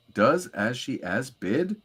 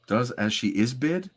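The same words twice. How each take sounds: First: "as she as bid" said with "as" in place of "is"; "as she as bid", with a plain "as"; misread line. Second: "As She Is bid" with a clear "is"; "Is" said carefully in "As She Is bid"; corrected reading. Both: Shown as a demonstration. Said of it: "That is incorrect".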